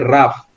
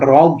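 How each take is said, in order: First: The word ends with an f sound. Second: The word ends with a hard g sound. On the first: The speaker calls it right. "tapi rough" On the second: The speaker calls it wrong. "Bacanya bukan rog ya"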